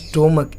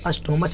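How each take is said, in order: First: The word ends with a 'k' sound. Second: The word ends with a 'ch' sound. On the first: The speaker calls it right. "इसको उच्चारण में का क्या आता है" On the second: The speaker calls it wrong. "इसको अस्टोमच नहीं पढ़िएगा"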